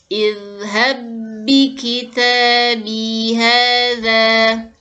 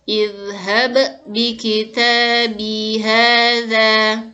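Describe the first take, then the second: First: The first b merges into the next b smoothly. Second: The first b is released separately with a bounce. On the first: The speaker calls it right. "bacaan yang benar" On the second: The speaker calls it wrong. "bacaan yang salah"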